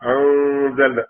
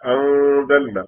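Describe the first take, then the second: First: The n is only a hum through the nose. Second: The n is only a hum through the nose.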